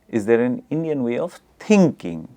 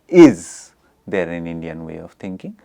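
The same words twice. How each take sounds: First: The stress falls on the word thinking. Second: The stress falls on the word is. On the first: "the stress is on thinking" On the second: "there is a stress on is"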